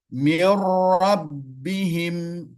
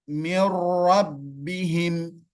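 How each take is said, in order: No difference in how they are said.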